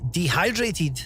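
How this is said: It is said American-style, stressing the hydrated part.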